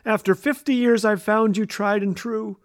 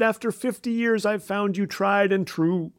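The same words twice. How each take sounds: First: It is said in a raised, louder voice. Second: It is said at a normal volume.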